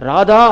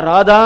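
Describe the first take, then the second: No difference in how they are said.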